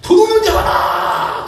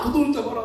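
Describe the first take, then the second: First: Very high, drawn-out shout for help; shouted alarm. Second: High but soft repeat of a shout; subdued echoed cry. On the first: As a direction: holler after a fleeing thief. Acts out chasing crowd calling out. (도둑을 쫓으며 높고 길게 고함치기) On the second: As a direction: toss the cry off softly, as an echo. Same cry repeated, much softer. (외침을 작은 소리로 되풀이하기) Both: Acted.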